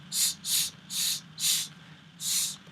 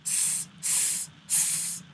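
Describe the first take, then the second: First: Heavy Arabic S from the middle of the mouth; thick emphatic Saad S. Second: Front-of-mouth English S; plain S with the tongue forward; light thin S; normal S. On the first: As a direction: hiss a deep heavy S. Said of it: "pump S comes from the middle". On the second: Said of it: "which would sound like this". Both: Shown as a demonstration.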